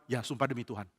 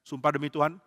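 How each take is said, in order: First: "Ya, sumpah demi Tuhan" soft, low, falling; subdued confirmation. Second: "Sumpah demi Tuhan?" lifted at the end; questioning. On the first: Father answering his son, quiet falling "Ya, sumpah demi Tuhan". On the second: Son asking father for an oath, questioning "Sumpah demi Tuhan?" with rising end. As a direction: ask "Sumpah demi Tuhan?" seeking confirmation. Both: Acted.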